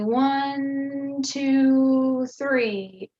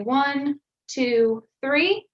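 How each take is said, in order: First: The numbers are joined in one constant voice. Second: The numbers are said separately with breaks.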